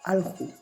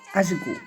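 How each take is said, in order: First: The middle consonant is an l-like sound. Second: The middle consonant is a buzzing zh sound. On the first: This is another variety's pronunciation. "En otra variante es alju" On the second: This is the local variety's pronunciation. "Acá es ashgu"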